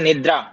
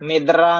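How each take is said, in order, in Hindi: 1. d और r एक ही गुच्छे में मिलाकर बोले जाते हैं। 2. d और r अलग-अलग ध्वनियों की तरह बोले जाते हैं। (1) "द और र अलग अलग नहीं बोले, इकट्ठा बोले" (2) "निद्रा नहीं है जी"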